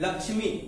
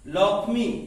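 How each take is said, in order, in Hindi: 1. बीच का संयुक्त अक्षर 'ksh' जैसा सुनाई देता है: lakshmi. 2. बीच का संयुक्त अक्षर दोहरे 'k' जैसा सुनाई देता है: lokkhi.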